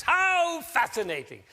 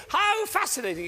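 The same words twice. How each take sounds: First: Much higher, slow, arms-up delight; celebrating a mistake. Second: Much higher, louder delighted cry; celebrating a mistake. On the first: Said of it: "the way to celebrate is like this". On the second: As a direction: toast the blunder with joy. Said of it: "you go". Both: Shown as a demonstration.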